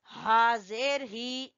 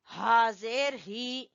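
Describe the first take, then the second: No difference in how they are said.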